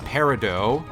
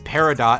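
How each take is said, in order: First: It is said unlike the spelling, final t silent. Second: It is said as spelt, final t sounded. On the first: This is the accepted pronunciation. The speaker calls it right. "but it is apparently pronounced peridot" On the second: This is the childhood reading from the spelling. The speaker calls it wrong. "I always used to pronounce as peridot as a kid, probably because that's how it's spelt"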